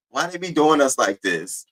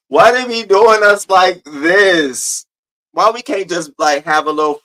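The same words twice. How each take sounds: First: Said in the usual way. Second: Higher, louder, slowly drawn-out whine; mock lament. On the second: Streamer playfully complains to the chat, slow and wailing. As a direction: stretch every word out like a theatrical complaint.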